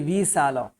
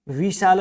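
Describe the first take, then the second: First: विशाल with a plain s, vi-sal; correct visal. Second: विशाल with a sh sound, the wrong way; विशाल said vi-shal, the mistake; wrong vishal. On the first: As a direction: soften the sh of विशाल to s. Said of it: "विशाल है". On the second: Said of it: "विशाल नहीं". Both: Shown as a demonstration.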